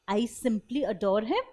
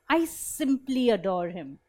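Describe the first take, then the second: First: It is said as a flat, plain statement. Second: It is said warmly, expressing love.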